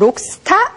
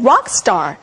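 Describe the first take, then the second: First: It is said with Korean-style pronunciation. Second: It is said with English pronunciation. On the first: The speaker calls it wrong. "록스타 아니고" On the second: The speaker calls it right. "영어식 발음"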